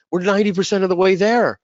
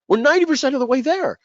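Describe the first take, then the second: First: Higher, louder insistence on the point; pleading insistence. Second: Much higher, louder, almost cracking repeat; desperate pleading. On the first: Telling partners the product is nearly done, insistent. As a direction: press the point hard. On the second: Repeating to partners in desperation, much higher pleading. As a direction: push it up to a desperate peak. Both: Retold or imitated. Begging partners not to restart.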